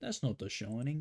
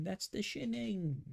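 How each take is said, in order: First: British caricature, "Shining" as "Shoning", rising; mock British accent. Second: High, drawn-out British "Shinning" for "Shining"; mock British accent. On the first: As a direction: put on British, round it to "Shoning". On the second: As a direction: stretch a squeaky British correction, short-i "Shinning". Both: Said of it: "British people be like".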